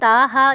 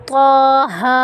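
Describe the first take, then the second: First: The first consonant is light and plain. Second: The first consonant is heavy and emphatic. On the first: The speaker calls it wrong. "कुछ लोग पढ़ते हैं ताहा" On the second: The speaker calls it right. "ये ता नहीं है, ये तौ है।"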